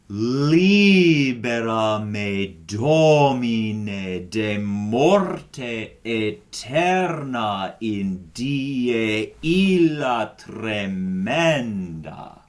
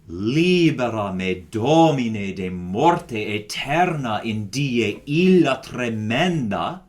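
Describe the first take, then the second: First: It is said slowly. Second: It is said fast.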